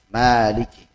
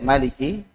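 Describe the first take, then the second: First: The first vowel is long. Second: The first vowel is short. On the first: "ada juga yang menambahkan dengan alif" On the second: "Ada yang baca dengan pendek"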